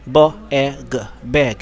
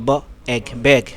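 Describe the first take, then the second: First: Each letter is sounded out separately before blending. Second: The ending 'eg' is said together as one chunk. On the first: The reader cannot recognise the word ending yet. "পুরোটা বানান করে পড়তে পারে" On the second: The reader already knows the word ending. "প্রথম লেটারটা শুধু sound উচ্চারণ করবে, বাকিটা একসাথে পড়বে"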